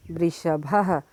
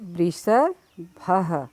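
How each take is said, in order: First: Said in the usual way. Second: वृषभः drawn out slowly, every syllable clear; slow model word. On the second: Shown as a demonstration. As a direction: stretch वृषभः out slowly for the class to copy. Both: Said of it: "इसे मेरे साथ-साथ बार-बार दोहराइएगा".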